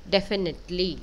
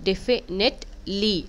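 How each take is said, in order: First: Said in the usual way. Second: Slow syllable read. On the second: Shown as a demonstration. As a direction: definitely read slowly, syllable by syllable.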